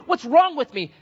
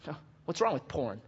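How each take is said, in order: First: High, loud acted desperation; imitated anguished cry. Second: Soft, offhand mock challenge; imitated careless indifference. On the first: Broken sinner pleading with the pastor, mock anguished cry. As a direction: cry it out like a tormented penitent. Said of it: "they are crying and they're saying". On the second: Unrepentant person questioning the pastor, soft careless tone. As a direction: shrug the question out quietly.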